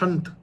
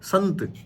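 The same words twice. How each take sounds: First: The first sound is an sh-like hiss. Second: The first sound is a dental s. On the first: The speaker calls it wrong. "संत बोलेंगे संत" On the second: The speaker calls it right. "जबकि वो होता है संत। वो जो है अ, इससे बोलता है दंतव्य से।"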